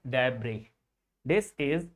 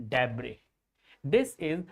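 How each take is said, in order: The two takes are said the same way.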